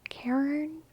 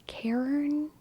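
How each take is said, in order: First: The name sounds like Karen. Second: The same.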